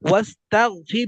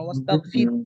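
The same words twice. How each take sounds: First: The word ends with a faint breathy h sound. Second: The word ends on r with no h sound. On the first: "হায়ের ভাব আমার পড়ার মধ্যে আনতে হবে।" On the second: "এম যদি হা না থাকতো, রা- রয়ের মধ্যে সাকিন হয়ে যেত"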